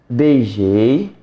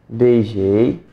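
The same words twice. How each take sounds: No difference in how they are said.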